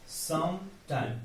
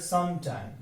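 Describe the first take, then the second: First: Both syllables carry a stress. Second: Only one syllable carries a stress.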